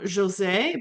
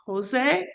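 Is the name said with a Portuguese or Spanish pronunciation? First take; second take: Portuguese; Spanish. First: It is said with a Portuguese pronunciation. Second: It is said with a Spanish pronunciation.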